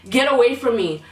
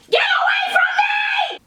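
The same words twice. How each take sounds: First: Said in the usual way. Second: Piercing high scream at full volume. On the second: Retold or imitated. Old lady screaming at the man in the aisle, high shriek. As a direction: shriek it at the top of your lungs. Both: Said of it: "She literally screamed at the top of her lungs".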